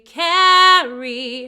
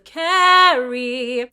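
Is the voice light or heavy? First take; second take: light; heavy. First: It is said lightly, like a speaking voice. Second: It is said with a heavy, lowered-larynx voice.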